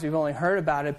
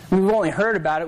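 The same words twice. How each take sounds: First: "heard" stressed, the line dropped softer; preacher repeating the line, now softly stressing "heard". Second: Preacher to congregation, hitting "only" with mild stress. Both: Shown as a demonstration.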